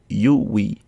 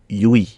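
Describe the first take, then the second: First: It is said slowly as two parts. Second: It is said quickly as one blended sound. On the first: "So it is pronounced as you we" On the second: "but usually a bit quicker as yui"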